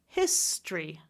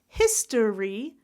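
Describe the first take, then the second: First: It is said with two syllables. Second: It is said with three syllables.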